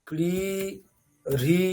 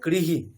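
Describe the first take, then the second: First: The syllable ends with a repeated 'ri' sound. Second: The syllable ends with a plain 'hi' sound. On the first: The speaker calls it wrong. "Not ক্রি রি এরকম হবে না" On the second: The speaker calls it right. "উচ্চারণটা কি হবে? কৃহি"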